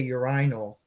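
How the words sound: It is said with a British pronunciation. "but they say urinal"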